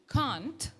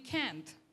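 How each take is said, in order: First: It is said in a British accent. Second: It is said in an American accent. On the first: "the British can't" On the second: "will be can't in America"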